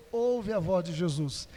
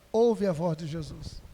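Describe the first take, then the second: No difference in how they are said.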